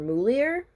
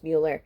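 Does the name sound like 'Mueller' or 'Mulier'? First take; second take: Mulier; Mueller. First: The name is said as Mulier. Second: The name is said as Mueller. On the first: The speaker calls it wrong. "I could never pronounce it when we were younger. I called her Mulier" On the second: The speaker calls it right. "her last name was Mueller"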